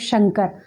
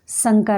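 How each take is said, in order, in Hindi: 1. शब्द 'sh' ध्वनि से शुरू होता है। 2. शब्द 's' ध्वनि से शुरू होता है। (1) "शंकर बोल रहे हैं तो शंकर" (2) "शंकर नहीं। ... फिर उसका अर्थ ही बदल गया"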